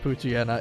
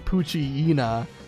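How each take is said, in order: First: The ending does not rhyme with hyena. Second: The ending rhymes with the word hyena. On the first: The speaker calls it wrong. "instead of Poochyena" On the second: The speaker calls it right. "It should be Poochyena, like hyena"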